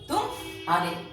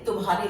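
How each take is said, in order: First: It has a brief break between syllables. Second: It is said smoothly with no break. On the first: It means you lost. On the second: It means yours.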